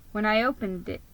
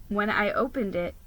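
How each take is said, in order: Both takes have the same delivery.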